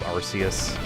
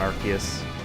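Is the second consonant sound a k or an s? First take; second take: s; k. First: The c is said as an s sound. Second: The c is said as a k sound. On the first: "pronounce it how it's spelled" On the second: "Put a K if you want"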